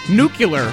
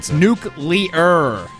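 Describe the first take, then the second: First: The word is not said like new-clear. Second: The word is said like new-clear. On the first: The speaker calls it wrong. "he pronounces it nuclear, which is actually very common" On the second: The speaker calls it right. "just say new and clear, and you can't get it wrong"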